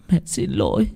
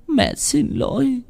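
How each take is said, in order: First: Soft and tearful; a quiet, choked sorry; mother holding her child, softly tearful; tearful apology. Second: High, slow wail on xin; the second sorry cracks into crying; mother to child, voice breaking into a sob. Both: Acted. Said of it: "khóc đẫm lệ".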